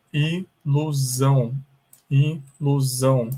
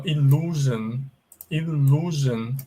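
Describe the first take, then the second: First: "ilusão" drawn out as i-lu-ZÃO; slow Portuguese pronunciation. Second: "illusion" slowly as il-LOO-zhun; English pronunciation demo. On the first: Teacher giving the Portuguese word for illusion, slow pronunciation. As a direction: say "ilusão" slowly with z and a nasal ending. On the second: Teacher pointing out the U in illusion, English pronunciation demo. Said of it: "aqui tem o U também". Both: Shown as a demonstration.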